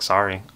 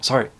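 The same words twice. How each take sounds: First: The word is said in a sarcastic tone. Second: The word is said in a surprised tone. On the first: The apology is not sincere. "do you say it sarcastically" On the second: The speaker is caught off guard. "do you say it like you're surprised"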